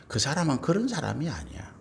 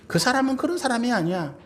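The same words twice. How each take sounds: First: Said in the usual way. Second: Raised, higher insistent voice on 그런; firm insistence. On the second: Shown as a demonstration. Spouse defending partner against rumor, firm and raised. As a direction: declare it firmly, raising the voice.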